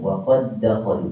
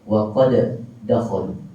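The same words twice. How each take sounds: First: The first d merges smoothly into the second d. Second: The first d is released with a bouncing echo. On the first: The speaker calls it right. "Pada huruf dal yang pertama tidak akan ada tanda mati" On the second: The speaker calls it wrong. "orang akan baca dengan qalqalah"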